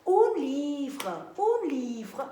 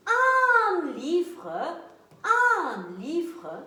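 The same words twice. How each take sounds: First: "Un livre" said as the masculine un; wrong gender. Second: "un livre" corrected with stressed un; correct gender. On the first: Teacher showing the wrong article before correcting. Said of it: "on ne dit pas un livre". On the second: Teacher giving the correct article for the class. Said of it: "on dit". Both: Shown as a demonstration.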